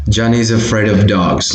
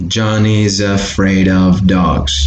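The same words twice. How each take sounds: First: "Johnny's afraid of dogs" linked as one word; connected speech. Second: "Johnny's afraid of dogs" slowed, each word joined to the next; slow linking. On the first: Teacher showing how linking sounds, connected pronunciation. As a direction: run "Johnny's afraid of dogs" together without gaps. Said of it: "like that". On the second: Teacher demonstrating word by word, slow linked pronunciation. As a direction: stretch "Johnny's afraid of dogs" smoothly, no breaks. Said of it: "connecting word by word, linking them". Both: Shown as a demonstration.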